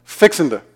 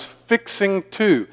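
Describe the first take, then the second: First: "Fixin' to" run together as one word; quick, merged "Fixin' to"; mashed into one word. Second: "fixing to" slow and higher, each word separate; carefully drawn-apart "fixing to"; spread out. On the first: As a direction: say "Fixin' to" Southern style, g dropped. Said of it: "we tend to mash up several words". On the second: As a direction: spell out "fixing to" with a full -ing and a clear "to". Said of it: "if you wanna spread that out". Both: Shown as a demonstration.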